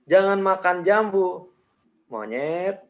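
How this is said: There is a pause after jambu. "jedanya gue kasih setelah jambu"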